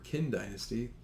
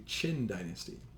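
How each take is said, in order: First: The name is read as spelled, like 'kwin'. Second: The name begins with a ch sound. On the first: The speaker calls it wrong. "You don't pronounce that the Qin dynasty ... like it would look like" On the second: The speaker calls it right. "It really should be spelled with a C H"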